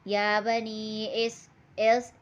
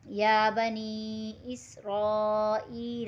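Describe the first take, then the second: First: The vowel before the final L sounds like 'ay'. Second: The vowel before the final L is a clear 'ee'. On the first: The speaker calls it wrong. "लोग पढ़ते हैं ... हम ऐसे नहीं पढ़ना है। मजहूल पढ़ना" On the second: The speaker calls it right. "इसको एक अलिफ मिकदार खींच कर पढ़ना है"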